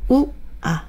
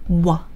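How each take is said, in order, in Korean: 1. 두 모음은 천천히 떨어뜨려서 발음합니다. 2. 두 모음은 빠르게 하나로 붙여서 발음합니다.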